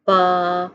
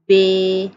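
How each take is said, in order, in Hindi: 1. अक्षर का नाम अरबी की 'a' स्वर ध्वनि पर समाप्त होता है। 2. अक्षर का नाम उर्दू की 'e' स्वर ध्वनि पर समाप्त होता है। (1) "मिसाल के तौर पर बा" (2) "उर्दू तलफ़्फ़ुज़ से परहेज़ करें, यानी बे"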